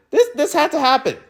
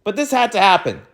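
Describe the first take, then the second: First: Repeated "This, this" pushed much higher; "This, this" pitched up, exasperated. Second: Said in the usual way. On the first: Shown as a demonstration. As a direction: stress "this" hard and high in frustration.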